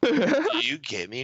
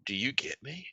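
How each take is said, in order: First: High, slow, drawn-out question; higher, slower mock plea; drawn-out acted question. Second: Hushed, much softer question; quiet mock-earnest question; soft acted question. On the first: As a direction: stretch it out and pitch it up. Same quote repeated over laughter. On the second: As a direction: ask it very softly, rising at the end. Acted quote, soft first take.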